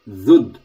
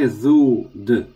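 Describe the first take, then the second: First: The sounds are joined in one syllable. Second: The sounds are split apart with a break. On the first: The speaker calls it right. "dhud together" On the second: The speaker calls it wrong. "Don't say dhud"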